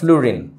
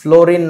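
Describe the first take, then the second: First: The first vowel sounds like 'oo'. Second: The first vowel sounds like 'oh'. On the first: The speaker calls it right. "উচ্চারণটা ফ্লুরিন" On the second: The speaker calls it wrong. "ফ্লোরিন না বাবা"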